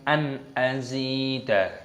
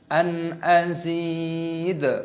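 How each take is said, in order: First: The word ends with an added vowel a. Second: The word ends on the consonant d. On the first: The speaker calls it wrong. "bukan an azida, itu salah" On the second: The speaker calls it right. "ketika berhenti maka dimatikan"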